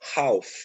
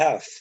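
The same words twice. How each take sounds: First: The word is said the way it is spelled. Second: The word is not said the way it's spelled. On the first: The speaker calls it wrong. "e não half, como tá aí" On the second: The speaker calls it right. "a pronúncia correta é half"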